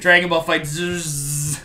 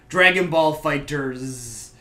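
First: The final z sound is strongly drawn out. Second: The final z sound is said plainly.

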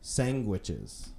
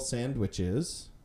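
First: It is said with a g sound inside. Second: It is said with no g sound inside.

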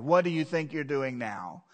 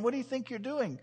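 First: It sounds mocking and sarcastic. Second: It sounds curious and innocent.

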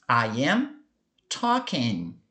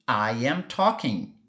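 First: The sentence is spoken very slowly. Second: The sentence is spoken at a natural speed. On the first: "Falando bem devagar para você perceber" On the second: "Mais naturalmente"

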